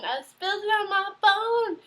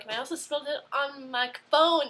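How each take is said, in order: First: Higher, louder cry of disbelief at her own clumsiness; mock outraged disbelief. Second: Said in the usual way. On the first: Real, not acted. Telling viewers she ruined her phone, higher, louder disbelief. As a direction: exclaim it like you can't believe you did it.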